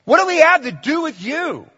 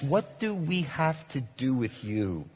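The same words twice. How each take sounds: First: Very high, loud indignant cry; demons defiant. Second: Quiet, measured paraphrase; demons' words retold. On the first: Acted. Demons crying out at Jesus, loud high indignant. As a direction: push him away with the words. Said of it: "that's what these demons are saying to Jesus". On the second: Paraphrasing the demons to Jesus, quietly. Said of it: "they're saying, in essence".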